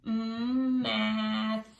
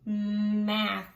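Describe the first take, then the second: First: Mm held, then math, stretched. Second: Said in the usual way. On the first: Shown as a demonstration. Teacher stretches math out with the class. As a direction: hum the m then glide into math. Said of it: "let's stretch it out together". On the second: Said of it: "stretch it out together".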